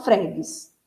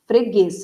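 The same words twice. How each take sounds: First: Fregues stressed wrongly on the first syllable, FRÉ-gues; misplaced stress. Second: Freguês with the final guês stressed; stress on last syllable. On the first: Teacher showing how not to say it, fregues stressed on fre. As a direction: move the stress of fregues forward onto fre. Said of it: "você não fala". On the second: Teacher showing where the stress falls in Freguês, final syllable stressed. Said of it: "com a sílaba tônica na última sílaba". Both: Shown as a demonstration.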